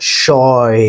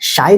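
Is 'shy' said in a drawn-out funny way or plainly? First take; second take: drawn-out; plain. First: The word is drawn out with an odd vowel. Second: The word is said short with a plain vowel. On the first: This is how the character talks. "जिस तरीके से ये words को खींच के बोलते हैं" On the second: This is the ordinary way to say it. "शाय नहीं बोलती है"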